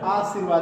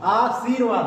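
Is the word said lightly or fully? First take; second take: lightly; fully. First: The word is said lightly and softly. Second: The word is said fully and clearly. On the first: The speaker calls it wrong. "धीरे से बोल रहे हैं" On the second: The speaker calls it right. "आशीर्वाद होता है"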